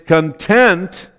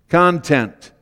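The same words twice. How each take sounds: First: The stress is on the second syllable. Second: The stress is on the first syllable. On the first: A feeling of being full and satisfied. "But you put the emphasis on the second syllable, it's content" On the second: What is held inside something. "if you put the emphasis on the first syllable, it's content"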